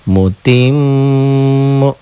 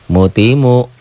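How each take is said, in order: First: The m is doubled and nasalised. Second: The m is single and short. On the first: "Sama aja" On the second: "Coba hilangkan siddahnya"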